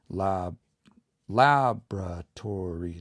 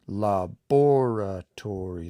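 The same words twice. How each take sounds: First: Laboratory slowly as LAB-ra-tor-y; syllable by syllable, LAB stressed. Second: Laboratory very slowly as la-BOR-a-tor-y; syllable by syllable, BOR stressed. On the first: Teacher counts syllables of laboratory, slow with LAB stressed. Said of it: "it's the fourth s-, last syllable". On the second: Teacher counts syllables of the other version, slow with BOR stressed. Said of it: "It's the fourth last". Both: Shown as a demonstration.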